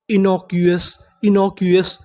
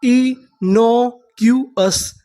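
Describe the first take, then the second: First: Said in the usual way. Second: Very slow, drawn-out reading; innocuous drawn out slowly, syllable by syllable; slow syllable demo. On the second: Shown as a demonstration. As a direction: stretch each syllable of innocuous. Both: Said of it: "तो हमारी पूरी meaning क्या बनी?".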